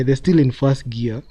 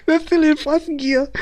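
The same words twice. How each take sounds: First: Said in the usual way. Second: Words pushed out high through laughter; can't hold back the laugh while saying it; amused laughing. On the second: Real, not acted. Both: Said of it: "I'm laughing".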